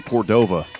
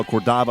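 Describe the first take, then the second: First: Second Cordova as cor-DOH-vuh; long-o pronunciation. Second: First Cordova as cor-DAH-vuh; open-a pronunciation. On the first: Announcer gives the other way, Cordova as cor-DOH-vuh. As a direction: Cordova with "oh" in the middle. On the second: Announcer gives one of both ways, Cordova as cor-DAH-vuh. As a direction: Cordova with "ah" in the middle. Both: Shown as a demonstration. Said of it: "pronounced both ways".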